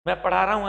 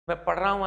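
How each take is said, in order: First: Put-on "मैं पढ़ा रहा हूं" said with long पढ़ा, the old translation habit; rote wrong form. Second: "मैं पढ़ रहा हूं" with short पढ़, no long a; corrected form. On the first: Teacher contrasting the learned sentence with the right one, long पढ़ा. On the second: Teacher giving the corrected sentence, short पढ़. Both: Shown as a demonstration.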